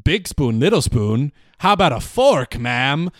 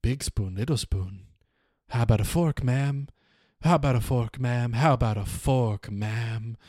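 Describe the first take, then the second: First: Deadpan set-up, then punch "fork"; punchline delivered to camera. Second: Soft, fading inner voice while being beaten; quiet repeated thought, trailing off to almost nothing. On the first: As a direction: land "fork" as the big punchline, pitched up. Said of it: "Frank looks dead into the camera and says". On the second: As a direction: murmur it to himself, dropping away. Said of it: "he just is thinking". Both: Acted.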